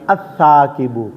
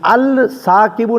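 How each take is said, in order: First: The l merges into a doubled s sound. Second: The article's l sound is clearly pronounced. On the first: The speaker calls it right. "बल्कि" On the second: The speaker calls it wrong. "नहीं पढ़ा जे"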